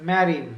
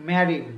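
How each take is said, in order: The two takes are said the same way.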